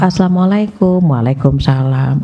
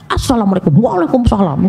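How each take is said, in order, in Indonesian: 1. Diucapkan dengan nada rendah dan lembut. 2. Diucapkan dengan nada marah dan kasar. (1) "Beda Bu kalau dengan nada rendah" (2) "Masa doa dimarah-marahin"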